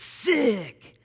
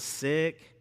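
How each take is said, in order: First: The word is said in a marked, emphatic way. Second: The word is said in a plain, neutral way. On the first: Something is good. "you got to say it like that" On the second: Something is gross or unwell. "If something's sick, then it's probably gross"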